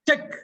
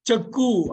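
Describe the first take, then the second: First: The word ends sharply on the k sound. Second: The word ends with an added vowel sound. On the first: The speaker calls it right. "செக் அவ்வளவுதான்" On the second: The speaker calls it wrong. "செக்கு அப்படின்லாம் படிக்க கூடாது"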